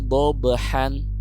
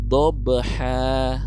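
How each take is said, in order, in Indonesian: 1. Kata ini berakhir dengan bunyi n. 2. Kata ini berakhir dengan vokal a yang dipanjangkan.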